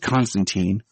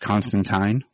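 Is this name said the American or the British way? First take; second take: American; British. First: The name is said in the American way. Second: The name is said in the British way. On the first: "Keanu's Constantine ... we'll go with Keanu for the Americanized" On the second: "they went with the British, I guess, proper pronunciation where it's Constantine"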